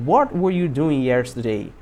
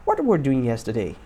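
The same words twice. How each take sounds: First: Slow, spaced-out question falling at the end; slow model sentence. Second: Said in the usual way. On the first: Shown as a demonstration. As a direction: say it slowly for learners to repeat. Teacher models slowly, then faster. (pergunta modelo, devagar e pausada)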